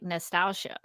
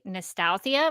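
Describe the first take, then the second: First: The ending is said with a sh sound. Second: The ending is said without a sh sound. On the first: "probably supposed to be like" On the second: "when I read it in my head"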